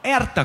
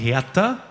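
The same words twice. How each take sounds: First: The initial H is silent. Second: The initial H is pronounced. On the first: The speaker calls it right. "der wird immer stumm geredet" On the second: The speaker calls it wrong. "man sagt nicht"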